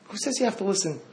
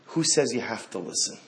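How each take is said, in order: First: Higher pitched, pointed repeat of "Who says you have to listen?"; raised challenge. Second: Said in the usual way. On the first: Shown as a demonstration. Rabbi challenging listeners with a higher pitched repeat.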